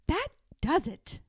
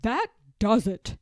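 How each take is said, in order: First: Resolved. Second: A loud, fed-up declaration. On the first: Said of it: "said Martha". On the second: George gives up on Martha's meddling, loud and fed up. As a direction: put your foot down, louder. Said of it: "said George". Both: Acted.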